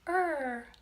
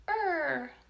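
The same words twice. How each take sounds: First: It is said in a warm, kind tone. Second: It is said in a warm, kind tone.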